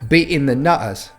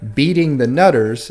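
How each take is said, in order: First: The middle T sounds are dropped. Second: The middle T sounds are pronounced.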